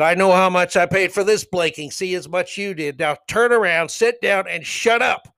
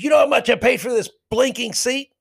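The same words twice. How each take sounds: First: Heated retort, raised pitch; retold angry comeback. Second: High-pitched, indignant mock shout; retold indignant fan. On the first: Spectator answering a heckling fan, angry. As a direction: throw it back, then order him down. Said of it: "I couldn't believe I was that angry". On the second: Heckler turning on the man behind him, indignant. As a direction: throw it back as an outraged challenge. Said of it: "he turned around and looked at me".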